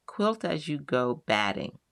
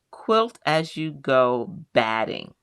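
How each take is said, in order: First: Said in the usual way. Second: Each word of "quilt as you go batting" spelled out slowly; introducing a product name, slow and careful; slow and deliberate. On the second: Shown as a demonstration.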